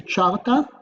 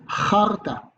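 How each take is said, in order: First: It begins with a 'tch' sound. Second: It begins with a throaty, raspy sound. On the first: The speaker calls it wrong. "You don't say charta because we do not pronounce like this" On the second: The speaker calls it right. "So it's charta"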